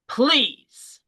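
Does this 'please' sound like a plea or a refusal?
refusal. It sounds like a refusal, meaning no. The speaker is saying no.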